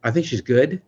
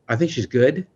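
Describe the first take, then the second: First: It is said hesitantly, with an unsure tone. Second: It is said hesitantly, with an unsure tone.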